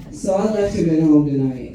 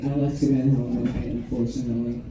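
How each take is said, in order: First: Said in the usual way. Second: Quiet, sad repeat. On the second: Shown as a demonstration. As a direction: let it drop, sadly.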